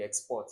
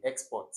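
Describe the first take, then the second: First: Export stressed on the second syllable, ex-PORT. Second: Export stressed on the first syllable, EX-port. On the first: Teacher showing the rejected reading, export stressed on PORT. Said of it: "which is not gonna be export". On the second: Teacher giving the correct reading, export stressed on EX. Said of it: "it will be export". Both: Shown as a demonstration.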